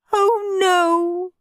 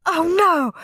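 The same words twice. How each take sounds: First: High, long-held moan of dismay; mum's drawn-out, high lament; despairing wail. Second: High-pitched cry of alarm; dad's short, high panicked exclamation; mild scream. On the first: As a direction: wail it as all hope goes. Mum despairing before tears. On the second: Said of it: "screamed Dad". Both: A narrator's reading.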